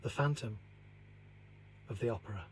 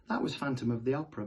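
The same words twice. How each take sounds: First: Closing a spooky tale, the narrator softly intones the title; hushed dramatic title. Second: Said in the usual way. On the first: A narrator's reading. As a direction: let the title hang in the dark, softly. Title read as dramatic close.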